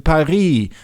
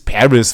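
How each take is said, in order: First: Paris is said with a French pronunciation. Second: Paris is said with an American pronunciation.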